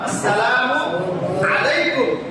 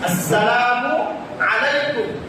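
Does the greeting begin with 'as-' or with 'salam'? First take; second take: as-; as-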